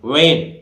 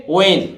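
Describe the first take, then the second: First: वेन with the h wrongly sounded after w; the mistaken "when", h not silent; wrong pronunciation. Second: वेन with a silent h; plain w opening वेन, "wen", punched; correct pronunciation. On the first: Teacher showing how people wrongly say वेन, h sounded. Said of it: "ये गलत है भाई". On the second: Teacher modelling वेन for students, h left silent. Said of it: "इसको कैसे बोलेंगे?". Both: Shown as a demonstration.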